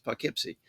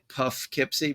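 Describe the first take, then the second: First: The first syllable does not rhyme with 'tough'. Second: The first syllable rhymes with 'tough'. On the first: The speaker calls it right. "It's Poughkeepsie" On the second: The speaker calls it wrong. "you think like in enough or tough... nobody says that"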